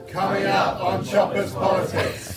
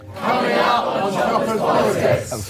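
First: It is said fairly quietly. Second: It is said more loudly.

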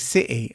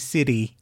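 First: The middle consonant is a crisp T sound. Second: The middle consonant sounds like a soft D. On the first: "instead of saying city" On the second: "I'd say city, like a D"

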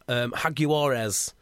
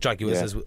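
First: The name is said with a fancy, three-syllable ending. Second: The name is said with a plain, two-syllable ending. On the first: It is a deliberately showy way of naming the team. "You've got to say Jaguares because it's so ridiculous" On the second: It is how most people name the team. "as people call them"

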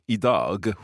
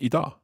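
First: The word is said slowly with every sound clear. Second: The word is said fast with sounds shortened. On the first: "when you're kind of speaking properly" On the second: "when you're speaking quickly, it becomes idag"

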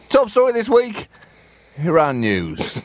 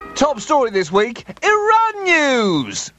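First: It is said in a serious, sombre tone. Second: It is said in an upbeat, cheerful tone. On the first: The news is treated as grave. The speaker calls it right. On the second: The news is treated as fun. The speaker calls it wrong.

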